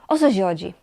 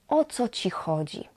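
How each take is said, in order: First: The words run together fast like one word. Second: The words are said at a normal, separate pace.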